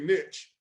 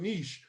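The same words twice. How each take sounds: First: The word is given its older, traditional pronunciation. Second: The word is given its newer, trendier pronunciation. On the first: This is how the old school says it. "I'm from the old school. We say niche" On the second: This is how people on YouTube say it now. "I hear a lot of guys now on YouTube and gals talking about niche"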